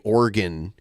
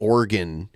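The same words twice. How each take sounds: First: The word is said with two syllables. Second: The same.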